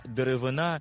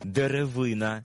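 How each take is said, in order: First: Деревина with the final НА stressed; stress on last syllable. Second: Деревина with ВИ stressed; stress on third syllable. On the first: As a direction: land on НА in деревина, the material. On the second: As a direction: lean on ВИ in Деревина, the single tree. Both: Shown as a demonstration. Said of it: "за допомогою наголосу змінюється своє значення".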